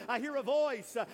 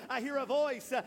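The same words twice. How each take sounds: The two takes are said the same way.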